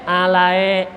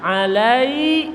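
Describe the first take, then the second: First: ALAE ending on an open e, lower; wrong e ending. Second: ALAI closing on a clear i sound; correct i glide. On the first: Teacher warning against a misreading, e ending. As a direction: let ALAE end in e instead of i. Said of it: "Jangan dibaca e". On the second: Teacher showing the dead ya, clear i. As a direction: finish ALAI with a held i. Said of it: "suara i". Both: Shown as a demonstration.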